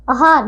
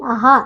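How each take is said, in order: First: आहार with a short first a, "ahaar"; mispronounced आहार. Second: Said in the usual way. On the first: Shown as a demonstration. Teacher shows pupils the error, short "a" opening आहार. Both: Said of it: "नहीं".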